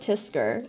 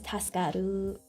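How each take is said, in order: First: The word is said in two short syllables. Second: The word is said in three full syllables. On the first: The speaker calls it wrong. "He pronounces it tisker" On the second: The speaker calls it right. "the accurate terminology is Taskaru"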